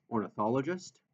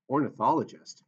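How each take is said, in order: First: Said in the usual way. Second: Surprised, questioning rise; puzzled question. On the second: Acted. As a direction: ask it in disbelief. Chris puzzled by his title.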